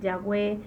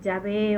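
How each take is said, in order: First: The middle consonant is a w sound. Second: The middle consonant is a v sound. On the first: It follows ancient Hebrew pronunciation. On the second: It follows modern Hebrew pronunciation.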